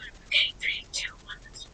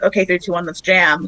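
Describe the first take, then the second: First: It is said in a whisper. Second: It is said in a normal voice.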